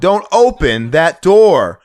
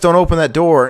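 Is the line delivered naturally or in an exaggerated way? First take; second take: exaggerated; natural. First: The line is delivered hokey, with stretched vowels. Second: The line is delivered in a natural way.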